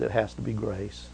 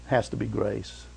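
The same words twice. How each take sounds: First: Quiet emphasis. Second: A softer, lower echo of the line; soft repeat. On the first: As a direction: drop to a soft, low hush. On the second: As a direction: repeat it quietly to land it. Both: Shown as a demonstration.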